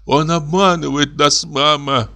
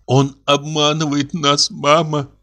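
First: 1 trembling insistence. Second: 1 stunned slow confession. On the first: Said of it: "повторила дочь". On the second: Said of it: "проговорила она". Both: A narrator's reading.

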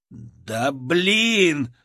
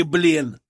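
First: Frustrated curse. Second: Loud dismissive curse, falling; contemptuous curse. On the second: Soldier cursing the cowardly scientist. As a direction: toss the curse at him. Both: A narrator's reading.

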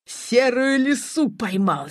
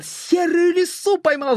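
First: First cry of triumph, held back a little; slow, mildly excited narrated shout; triumphant cry. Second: Higher, exultant cry of triumph; triumphant shout. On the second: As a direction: cry out the catch in high-pitched delight. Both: A narrator's reading. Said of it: "— закричал Шамов".

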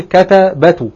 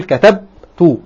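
First: كتبت said as katabatu with four short vowels in a row; wrong form كتبت with a vowel on the ba; wrong form shown. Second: كتبت said as katabtu with the ba unvoweled; right form كتبت, slowly, silent ba; correct form shown. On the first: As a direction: spell out كتبت as ka-ta-ba-tu, every letter voweled. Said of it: "فلا أقول كتبت". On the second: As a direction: say كتبت as katab-tu, the ba closed with no vowel. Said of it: "فأقول كتبت". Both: Shown as a demonstration.

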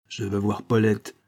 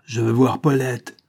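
First: Insistent demand at normal volume; understated, simmering anger; contained fury. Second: Loud, insistent angry demand; acted burst of anger; furious. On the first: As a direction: state the demand with held-back anger. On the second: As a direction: raise the voice and insist in fury. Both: A narrator's reading. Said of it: "dit Cloutot avec fureur".

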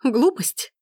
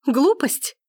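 First: Indignant cry. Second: "Глупость?" higher still, louder, rising; the second "Глупость?" climbs into a shriek of outrage; outraged shout. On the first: Gabrielle repeats Forster's insult in indignant disbelief. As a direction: throw his word back at him, stunned. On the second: Gabrielle, escalating, shouts Forster's word back at him. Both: A narrator's reading. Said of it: "крикнула она".

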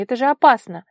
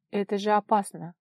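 First: Loud, high, stern exclamation; stern warning. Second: Understated alarmed protest; mild exclamation. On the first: Vara scolds the girl out at night, sternly. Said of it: "строго спросила она". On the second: Vara balks at following the girl, mildly exclaiming. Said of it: "воскликнула она". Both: A narrator's reading.

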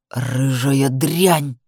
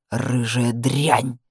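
First: Low, very slow snarl. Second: Low, very slow, bitter; spat with annoyance. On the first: Man slapped by the woman, low very slow snarl. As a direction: drag the insult out low. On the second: Man leans over fallen woman, low slow bitter. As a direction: grind it out with annoyance and anger. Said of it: "процедил он с досадой и злостью". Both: Acted.

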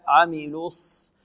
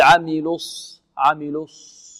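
First: عملوا الص rounded on L, lips relaxed on S; correct unrounded S. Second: عملوا الص with lips kept rounded into the S; wrong rounded S. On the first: Teacher correcting, slow عملوا الص with unrounded S. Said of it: "نضم في اللام ثم نرجع الشفتين في الصاد". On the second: Teacher showing the mistake, rounded lips on الص. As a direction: keep lips pursed through the S of الص. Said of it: "فلا نضم شفتينا". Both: Shown as a demonstration.

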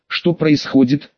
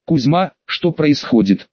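First: Said in the usual way. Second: Slow, through clenched teeth; through gritted teeth. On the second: Acted. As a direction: force it out between teeth. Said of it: "спросил я сквозь зубы". (сквозь стиснутые зубы)

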